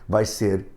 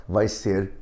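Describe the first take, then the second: Both takes have the same delivery.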